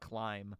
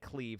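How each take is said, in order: First: The vowel is an 'eye' sound. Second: The vowel is an 'ee' sound. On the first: The speaker calls it wrong. "not climb" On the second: The speaker calls it right. "pronounced like cleave"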